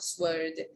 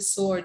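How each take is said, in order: First: The W sound is pronounced. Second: The W sound is left out. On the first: The speaker calls it wrong. "it's not a sword" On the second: The speaker calls it right. "W is silent, ... it's a sword"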